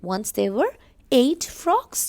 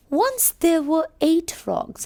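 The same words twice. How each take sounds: First: Slow storybook reread; teacher rereading the opening line for the class; storytelling read. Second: High, slow storybook opening; teacher reading the frog story to children; storytelling read. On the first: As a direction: read it again slowly for children. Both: Acted.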